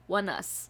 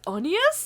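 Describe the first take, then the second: First: The name is said as 'one us'. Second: The name is said as 'oh-nee-us'. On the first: The speaker calls it right. "It literally says one us" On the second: The speaker calls it wrong. "it brings physical pain to me when I hear people pronounce it like that"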